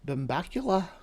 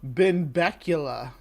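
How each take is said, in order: First: It is said in a fake Scottish accent. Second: It is said in the speaker's normal accent.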